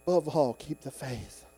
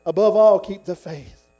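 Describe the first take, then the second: First: Soft, restrained urging; quiet exhortation. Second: Loud punch on ABOVE ALL, then dropping off; forceful exhortation. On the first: Preacher closing Paul's words for the church, quiet exhortation. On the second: Preacher urging the church after Paul's words, forceful exhortation. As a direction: hit "Above all" hard, let "keep the faith" fall. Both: Acted.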